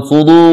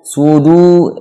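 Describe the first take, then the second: First: "sudu" with heavy D, toward "sudo"; wrong thick dal. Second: "Sudu" with a light D, pure long U; correct thin dal. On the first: Teacher showing learners the mistake, thick "sudu". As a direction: darken the D and U in "sudu". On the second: Teacher correcting for learners, thin-D "Sudu". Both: Shown as a demonstration. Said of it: "bukan sudu".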